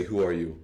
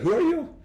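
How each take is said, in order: First: Said in the usual way. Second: Much higher, louder, startled who are you; shocked who are you. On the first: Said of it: "sometimes they might say". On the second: Shown as a demonstration. Teacher showing a shocked reaction to a caller, high and loud. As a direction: yelp it out in disbelief. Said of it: "I'd be like".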